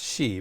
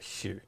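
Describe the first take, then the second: First: The vowel is plain, with no R-like sound. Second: The vowel has an R-like sound added. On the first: "my more Mandarin and uh, mainland uh, teachers have always said she. So it's she" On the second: "they always put a kind of R sound to the to the I"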